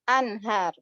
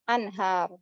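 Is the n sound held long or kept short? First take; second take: short; short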